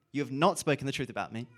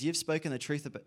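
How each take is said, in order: First: "not" punched louder as a correction; stress on "not". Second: Said in the usual way. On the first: Acted. Preacher corrects his reading of God's words, stressing "not". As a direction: hit "not" hard, moving briskly through the rest.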